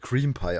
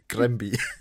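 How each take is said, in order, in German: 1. Es beginnt mit einem K-Laut und langem "ee". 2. Es beginnt mit einem G-Laut und kurzem "a". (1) "es wird Cream Pie ausgesprochen" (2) "nicht Grambi"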